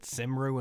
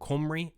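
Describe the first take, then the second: First: The word is given an anglicised, guessed pronunciation. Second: The word is given its native Welsh pronunciation. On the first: The speaker calls it wrong. "I apologise for calling your t-shirt Cymru and Western" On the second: The speaker calls it right. "I believe it is now Cymru and Western"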